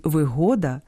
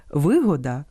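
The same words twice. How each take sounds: First: ВиГО́да, middle syllable stressed. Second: ВИ́года, opening syllable stressed; stress on first syllable. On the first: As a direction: say вигода stressing ГО. (наголос на другому складі: виго́да) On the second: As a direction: say вигода stressing ВИ. (наголос на першому складі: ви́года) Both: Shown as a demonstration. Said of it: "місце наголосу впливає на значення".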